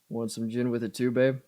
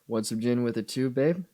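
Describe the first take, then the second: First: The pitch stays level on the last word. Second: A deep voice jumps high on the last word.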